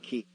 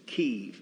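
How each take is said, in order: First: Kyiv said the common foreign way, as the mistake; wrong Kyiv. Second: Kyiv said the local way, as the right form; correct Kyiv. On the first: Teacher showing the listeners' mistake, wrong foreign pronunciation. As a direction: say Kyiv the way outsiders get it wrong. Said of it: "it's Kyiv, not". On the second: Teacher setting visitors straight, correct local pronunciation. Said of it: "by the way, if you didn't notice". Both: Shown as a demonstration.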